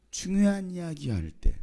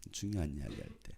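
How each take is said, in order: First: High, slow, emphatic statement; high-pitched and deliberate, falling at the end; emphatic answer. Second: Very low, soft repeat; quiet low aside; hushed echo. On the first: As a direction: announce it raised and drawn out. States answer, then repeats it low. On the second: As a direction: drop right down and repeat it quietly. Same answer repeated low and soft. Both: Real, not acted.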